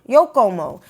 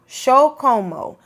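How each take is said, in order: First: It is said with a Spanish or Mexican pronunciation. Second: It is said with an Argentine pronunciation. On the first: "that could be from Spain or Mexico" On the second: "which region would that be from? Argentina, sí"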